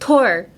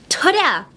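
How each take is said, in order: First: The syllable ends without an added vowel. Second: The syllable ends with an added vowel sound. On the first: The speaker calls it right. "No, Tor" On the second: The speaker calls it wrong. "like Tora!"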